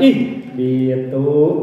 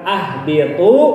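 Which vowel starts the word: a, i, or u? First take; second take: i; a. First: The word begins with an i vowel. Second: The word begins with an a vowel. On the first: The speaker calls it right. "ih biatu geningannya gitu" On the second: The speaker calls it wrong. "bukan ah biatu"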